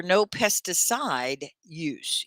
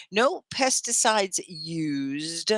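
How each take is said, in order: First: Slow "no pesticide use", "pesticide" without a final S; no plural S. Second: Slow "No pesticides used", plural S and a closing D; final D on "used". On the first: Teacher correcting Gunjan's phrase, slow "pesticide" without the S. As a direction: draw out "no pesticide use", dropping the plural ending. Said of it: "You don't have the S on the end". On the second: Teacher offering Gunjan a corrected phrase, slow "pesticides used" with both endings. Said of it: "You don't have the S". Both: Shown as a demonstration.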